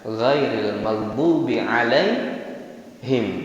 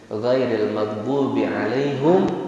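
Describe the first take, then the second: First: The 'h' of 'alaihim' takes an 'i' vowel. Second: The 'h' of 'alaihim' takes a 'u' vowel. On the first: "dengan mengkasrahkan haknya seperti yang kita baca sehari-hari" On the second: "Ini bacaan yang pertama"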